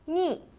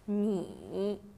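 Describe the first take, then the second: First: The pitch falls sharply from high to low. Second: The pitch dips low, then rises.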